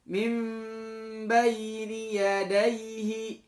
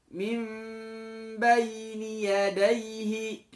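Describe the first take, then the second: Both takes have the same delivery.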